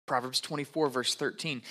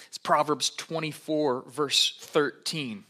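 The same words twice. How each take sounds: First: Said in the usual way. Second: "Proverbs twenty-four, verse thirteen" said slowly and clearly. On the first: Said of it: "repeating reference quietly". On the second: Real, not acted. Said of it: "announcing reference slowly".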